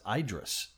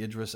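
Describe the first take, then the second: First: The first vowel sounds like 'eye'. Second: The first vowel does not sound like 'eye'. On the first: This is the pronunciation used overseas. "over across the pond, they pronounce the Idris as Idris" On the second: This is the usual pronunciation at home. "they pronounce the Idris as"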